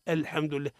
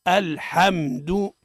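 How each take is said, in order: First: الحمد quick and soft, "el-hemdu", the a leaning to e; hurried "hem" in place of open "ham" in الحمد; wrong fronted vowel. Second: الحمد slowly, syllable by syllable, "al-ham-du"; measured model reading of الحمد, pure "ham"; correct open fatha. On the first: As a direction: say الحمد with the vowel tilted toward kasra. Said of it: "هذا خطأ". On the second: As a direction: say الحمد with a clear open a after ح. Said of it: "الصواب هو". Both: Shown as a demonstration.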